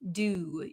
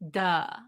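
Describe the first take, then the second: First: The vowel is a full oo with rounded lips. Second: The vowel is a short uh with dropped jaw. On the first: "we need a lot of um, stress around our lips" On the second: "So it becomes just a drop. Our jaw just drops down"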